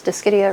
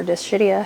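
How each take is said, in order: First: Put-on Dischidia said as dis-KID-ee-uh; hard SK pronunciation. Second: Dischidia said as dis-SHID-ee-uh; soft SH pronunciation. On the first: Offering viewers a choice of pronunciation, Dischidia with SK. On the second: Offering viewers the alternative pronunciation, Dischidia with SH. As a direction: say "Dischidia" with SH in place of the K. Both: Shown as a demonstration. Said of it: "however you'd like to say it".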